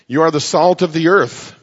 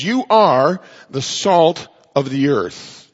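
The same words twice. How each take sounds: First: Said in the usual way. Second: Slow, with "are" stressed hard and falling; emphatic, forceful. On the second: Shown as a demonstration. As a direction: declare "You are" with full weight. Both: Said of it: "And it's emphatic and it's forceful".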